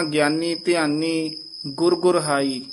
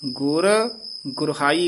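First: "ਗਿਆਨੀ ਧਿਆਨੀ ਗੁਰ ਗੁਰਹਾਈ" run on, "ਗੁਰ ਗੁਰਹਾਈ" joined; wrong phrasing. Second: Held "ਗੁਰ", break, then "ਗੁਰਹਾਈ" as one word; grouped pronunciation. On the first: Teacher showing how not to read, joined phrasing. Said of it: "ਇਉਂ ਨਹੀਂ ਕਹਿਣਾ". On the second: Teacher showing careful reading, separated then joined. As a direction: pause after "ਗੁਰ", keep "ਗੁਰਹਾਈ" together. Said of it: "ਇਕੱਠਾ ਬੋਲਣਾ". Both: Shown as a demonstration.

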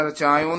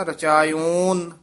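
First: "ਰਚਾਇਓਨ" quick, with a short closed last vowel; mispronunciation demo. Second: "ਰਚਾਇਓਨ" with a long, open final o; correct pronunciation. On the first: Teacher warning against a wrong form, "ਰਚਾਇਓਨ" with short last vowel. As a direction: shorten the o in "ਰਚਾਇਓਨ" to rachaa-yun. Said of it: "ਨਹੀਂ ਕਹਿਣਾ". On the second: Teacher giving the right form, "ਰਚਾਇਓਨ" with long open o. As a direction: draw out the last vowel of "ਰਚਾਇਓਨ", rachaa-yoon. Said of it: "ਇਸ ਤਰ੍ਹਾਂ ਉਚਾਰਨ ਕਰਨਾ". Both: Shown as a demonstration.

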